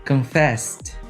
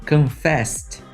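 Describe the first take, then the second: No difference in how they are said.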